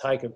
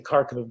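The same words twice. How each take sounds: First: Kharkiv is said with the local pronunciation. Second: Kharkiv is said with an American pronunciation. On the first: The speaker calls it right. "but it's pronounced Kharkiv" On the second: The speaker calls it wrong. "looks like Americans say Kharkiv"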